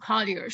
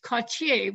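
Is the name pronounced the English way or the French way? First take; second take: English; French. First: The name is pronounced the English way. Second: The name is pronounced the French way. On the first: "he definitely preferred the pronunciation Cottier" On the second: "which is the kind of French way, of course, of saying Cottier"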